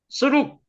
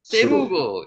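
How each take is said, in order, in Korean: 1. 이 이름은 두 음절로 읽어요. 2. 이 이름은 세 음절로 읽어요.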